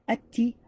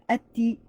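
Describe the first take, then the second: Both takes have the same delivery.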